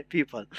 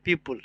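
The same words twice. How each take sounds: First: पीपल said as English people, pee-pul; पीपल as the English word for people; correct pronunciation. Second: पीपल said like the peepal tree, with a short second vowel; पीपल as the tree name, not the English word; common everyday slip. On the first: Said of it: "लेकिन होता है पीपल". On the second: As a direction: say पीपल the way people casually mispronounce it. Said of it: "हम लोग भी कभी कभी इसको बोल देते हैं". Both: Shown as a demonstration.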